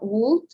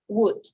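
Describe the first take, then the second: First: The word is said with an L sound. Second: The word is said with no L sound. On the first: The speaker calls it wrong. "it's not would" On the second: The speaker calls it right. "We don't pronounce letter L"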